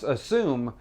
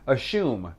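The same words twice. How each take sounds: First: The middle consonant is a plain s sound. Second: The middle consonant is an sh sound. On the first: The speaker calls it right. "There's no H in assume" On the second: The speaker calls it wrong. "in Australia, they pronounce"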